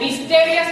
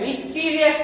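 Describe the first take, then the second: First: The second vowel sounds like 'eh'. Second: The second vowel sounds like 'ee'. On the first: The speaker calls it wrong. "મિસ્ટેરિયસ ના કહેવાય" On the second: The speaker calls it right. "મિસ્ટીરિયસ કહેવાય"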